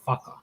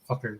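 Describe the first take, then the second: First: It is said the Hawaiian Pidgin way, like faka. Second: It is said the standard mainland way.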